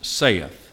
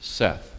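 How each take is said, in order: First: The vowel sounds like the one in 'say'. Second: The vowel sounds like the one in 'set'. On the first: The speaker calls it wrong. "is not pronounced saith" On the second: The speaker calls it right. "It's pronounced Seth"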